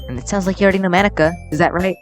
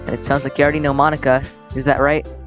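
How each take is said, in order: First: It is said in a put-on character voice. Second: It is said in his own natural voice.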